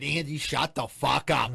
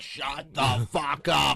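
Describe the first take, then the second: First: Slow, emphatic imitation of an angry mother; aggressive mom. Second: Very slow, louder mock-furious mother; aggressive mom. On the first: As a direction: lean hard on each word like a mad mom. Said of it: "like, aggressively". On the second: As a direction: drag out every word as a threat. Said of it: "like, aggressively, like, with her head moving".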